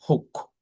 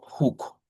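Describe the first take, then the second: First: The vowel is said short. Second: The vowel is said long. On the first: The speaker calls it right. "this one also is short sound. We say hook" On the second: The speaker calls it wrong. "not hook"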